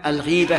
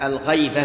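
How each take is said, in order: First: The first vowel is an 'i' sound. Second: The first vowel is an 'a' sound. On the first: The speaker calls it right. "فعلة من الغيب" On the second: The speaker calls it wrong. "كما ينطقه بعض الناس الغيبة بالفتح، هذا لحن"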